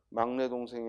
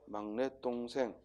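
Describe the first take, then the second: First: The d of dongsaeng is plain, not tensed. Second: The d of dongsaeng is tensed, like tt. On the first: The speaker calls it wrong. "막내 동생이 아니라" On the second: The speaker calls it right. "항상 사이소리 현상은 발음과 함께 기억을 해야 돼"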